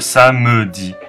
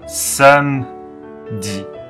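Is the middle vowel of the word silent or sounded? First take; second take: Sounded; Silent. First: The middle vowel is sounded, giving three syllables. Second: The middle vowel is silent, giving two syllables. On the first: The speaker calls it wrong. "而不是Samedi" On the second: The speaker calls it right. "是发Samedi ……那个是不发音的"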